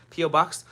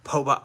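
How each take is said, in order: First: P O box? said letter by letter, P, O; P O box? read as the letters P and O; spelled-out letters. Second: Po box. said as one word, po rhyming with go. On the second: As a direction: say po box. as a single word, not letters. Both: Shown as a demonstration. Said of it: "I don't know why that sounded really bad".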